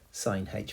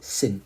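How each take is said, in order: First: It is said as sine followed by the letter h. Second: It is said as a single syllable, sinh. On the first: The speaker calls it wrong. "we don't actually pronounce them like that" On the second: The speaker calls it right. "Sinh is how you pronounce that"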